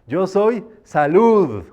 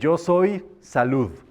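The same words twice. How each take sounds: First: It is said loudly and exuberantly, like a toast. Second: It is said in a plain, calm voice.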